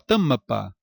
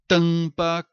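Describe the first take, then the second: First: The M is a full consonant with an extra vowel. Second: The vowel is nasalized with no consonant or glide. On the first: The speaker calls it wrong. "Não fala isso" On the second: The speaker calls it right. "falamos o quê? ... o som não decresce, não há semivogal"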